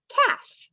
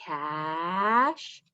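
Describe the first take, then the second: First: "math" said short and much higher; quick answer. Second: "Math" drawn out as a slow blend. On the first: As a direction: pop the answer out brightly. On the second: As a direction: stretch it while blending. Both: Shown as a demonstration. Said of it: "Put it all together".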